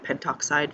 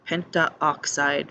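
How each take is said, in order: First: No extra vowel comes before 'oxide'. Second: An extra 'a' vowel comes before 'oxide'. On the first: The speaker calls it right. "feels much nicer" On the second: The speaker calls it wrong. "feels weird to say"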